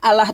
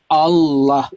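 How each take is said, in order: First: The L sound is light and thin. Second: The L sound is heavy and thick. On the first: The speaker calls it wrong. "nggak ada Allah tuh nggak ada" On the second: The speaker calls it right. "Tebal dia"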